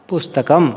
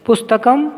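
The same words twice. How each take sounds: First: Said in the usual way. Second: पुस्तकं said higher with a rising end; पुस्तकं with the tune climbing, higher pitch; rising model word. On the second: Shown as a demonstration. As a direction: lift पुस्तकं up like a prompt. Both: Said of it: "अनुकरण वाचन विधि से".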